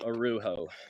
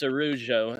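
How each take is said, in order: First: The J is a breathy h sound. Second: The J is a soft zh sound. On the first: The speaker calls it wrong. "No huh" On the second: The speaker calls it right. "It's ju"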